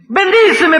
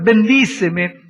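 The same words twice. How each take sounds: First: "bendíceme" cried out high and loud; "bendíceme" shouted up high in desperation; sharp, high "bendíceme"; high cry. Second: "Bendíceme" stretched slowly; "Bendíceme" pulled out long and pleading; slow, heavy "Bendíceme"; drawn-out plea. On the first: Second bendíceme. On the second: First of two bendíceme. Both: Acted.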